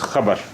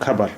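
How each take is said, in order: First: It starts with a throaty, rasping kh sound. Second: It starts with a plain aspirated k sound. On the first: The speaker calls it right. "there is dot below kha. So it is khabar" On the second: The speaker calls it wrong. "not khabar"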